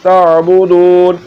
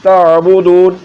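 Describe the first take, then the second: The two takes are said the same way.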